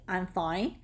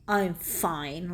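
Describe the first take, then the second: First: It is said in a plain, neutral tone. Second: It is said in an irritated, sharp tone. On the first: The person is actually fine. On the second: The person is not actually fine.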